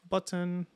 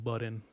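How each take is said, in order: First: The middle consonant is a crisp, hard T. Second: The middle consonant sounds like a soft D. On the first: "I'm saying button with a really hard T" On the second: "it sounds like I'm saying button with a D"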